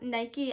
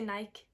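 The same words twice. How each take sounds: First: It is said with an American pronunciation. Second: It is said with the speaker's British pronunciation.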